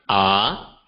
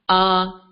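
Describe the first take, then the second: First: The pitch rises from lower to higher. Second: The pitch stays high and level. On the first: "the second tone, also known as the rising tone" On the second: "the high and flat tone, known as the first tone"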